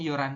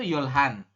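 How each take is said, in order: First: The h sound is dropped entirely. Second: The h sound is pronounced clearly. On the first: The speaker calls it right. "Tapi kita bacanya yoran si" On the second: The speaker calls it wrong. "kalau tulisannya tuh yolhan"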